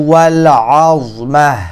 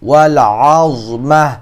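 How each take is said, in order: The two takes are said the same way.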